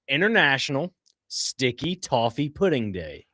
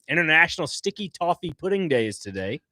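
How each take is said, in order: First: It is said slowly and deliberately. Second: It is said at a normal, quick pace.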